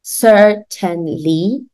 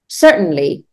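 First: "Certainly" slowly in three full syllables, cer-ten-ly; pronounced as written. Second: "Certainly" as cert-n-ly, the T swallowed; American muted T. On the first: Teacher showing the spelling to a learner, "Certainly" fully sounded out. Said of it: "ببین ما certainly می نویسیم". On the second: Teacher modelling for repetition, "Certainly" with mute T. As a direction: drop the vowel after T in "Certainly", go straight to N. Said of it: "pronunciation which is like mute". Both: Shown as a demonstration.

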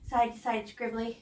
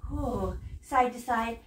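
First: Said in the usual way. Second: Stretched out slowly; slow demo. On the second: Shown as a demonstration. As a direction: draw the words out like the brushstroke.

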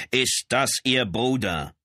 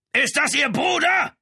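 First: Slow, raised voice short of shouting; toned-down insistent question. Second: Loud, high shout after someone; bellowed question. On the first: Lieutenant repeats his question to the brother, slower, toned down. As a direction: repeat it slowly, higher, holding back the roar. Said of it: "wiederholte Brown seine Frage etwas leiser". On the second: Lieutenant calls after the charging man, bellowing. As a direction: roar the question at his back. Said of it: "brüllte Brown ihm hinterher". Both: A narrator's reading.

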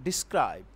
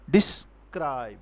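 First: Said in the usual way. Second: "Describe" slowly broken into dis and cribe; "Describe" in two drawn-out beats; syllables split for stress. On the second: Shown as a demonstration. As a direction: pull "Describe" apart, giving cribe its full weight. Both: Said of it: "we will give little stress on dis".

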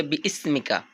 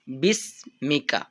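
First: বি ইসমিকা split in two with a break; wrong split. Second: বিসমিকা as one slow joined word; correct joined. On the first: Teacher showing the common mistake, split word. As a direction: say বি then ইসমিকা apart, the wrong way. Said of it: "এখানে সঠিক উচ্চারণটা হবে বিসমিকা". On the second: Teacher giving the correct form, slow and joined. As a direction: say বিসমিকা smoothly, no break. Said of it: "সঠিক উচ্চারণটা হবে বিসমিকা". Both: Shown as a demonstration.

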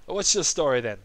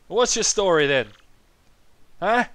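First: Lightly voiced old man, fairly restrained; toned-down old man. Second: Put-on high, loud old-man voice; senile old man. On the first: Old Koopa questions his visitors, restrained old-man voice. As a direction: ask it as a milder elderly character. Same line repeated after aside. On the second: Old Koopa questions his visitors, loud senile voice. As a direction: demand it like a doddery elder. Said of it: "He's very senile".

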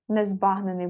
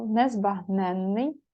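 First: Незбагнений with stress on БАГ, short н; stress on second syllable. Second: Незбагненний slowly, stress on НЕН; stress on third syllable. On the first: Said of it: "буде з однією". (незбагнений: наголос на БАГ, коротке «н») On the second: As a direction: draw out НЕН in незбагненний with long нн. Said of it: "незбагнений буде з однією". (незбагненний: повільно, наголос на НЕН) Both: Shown as a demonstration.

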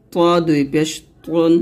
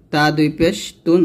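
First: তুন said with a heavy Arabic t; heavy emphatic t on তুন; thick To. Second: Light t in তুন; light Arabic t on তুন; thin ta. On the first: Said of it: "বলতে হবে মোটা করে". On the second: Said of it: "তখন পাতলা করে বলবেন". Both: Shown as a demonstration.

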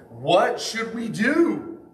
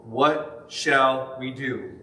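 First: Higher, slow and pleading; pleading question. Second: Said in the usual way. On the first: Acted. Crowd asking Peter what to do, pleading. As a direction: ask it like a convicted crowd begging.

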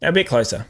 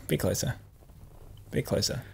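First: Said in the usual way. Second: Whisper, much softer, coaxing; whispered coaching. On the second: Real, not acted. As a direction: hush it, lean in. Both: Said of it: "coaching the sniff".

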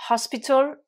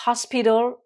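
First: HOSPITAL with a crisp t, "HOS-pi-tal"; higher British "hospital", t clearly sounded; British pronunciation. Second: Louder, higher American "hospital", d for t; American pronunciation. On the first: Teacher modelling for learners, British hospital with true t. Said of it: "prononciation britannique". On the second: Teacher contrasting for learners, American hospital with tapped t. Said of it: "prononciation américaine". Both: Shown as a demonstration.

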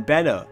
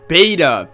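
First: Beta said "BET-uh", short first vowel; mispronounced beta. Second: Beta said "BAY-duh", long first vowel; corrected beta. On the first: Real, not acted. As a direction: say beta wrongly as "betta". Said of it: "I always say it wrong". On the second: Shown as a demonstration. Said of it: "it's pronounced beta".

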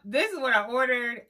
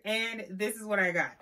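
First: Higher and louder, expectant build-up; hyped-up setup. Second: Said in the usual way. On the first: Acted. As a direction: sell the dream of the order. Ordered vs got meme contrast.

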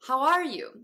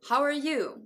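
First: "are" in "How are you" said full, higher and louder; fully pronounced ARE. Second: "are" in "How are you" weakened to "er"; reduced ARE. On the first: Teacher showing careful pronunciation, "are" in "How are you" said fully. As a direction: give "are" its full open vowel, punched. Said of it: "ちゃんと発音した時は". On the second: Teacher showing the sound change, "are" in "How are you" as "er". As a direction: shrink "are" to "er", keep "you" full. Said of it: "Rが音声変化した時は". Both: Shown as a demonstration.

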